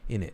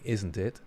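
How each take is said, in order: First: The T sounds are dropped, like innit. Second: The T sounds are clearly pronounced.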